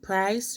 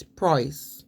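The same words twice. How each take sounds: First: Said in the usual way. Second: "price" said as "proyce"; regional vowel. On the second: Shown as a demonstration. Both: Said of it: "they use strange phrases".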